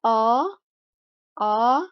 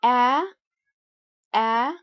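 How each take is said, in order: First: "a" as a back "ah"; British long A. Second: "a" as the open front vowel of cat; American short A. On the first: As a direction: sound out "a" as in British last, an open ah. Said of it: "in British English". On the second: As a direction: sound out "a" as in American last. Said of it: "the vowel sound". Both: Shown as a demonstration.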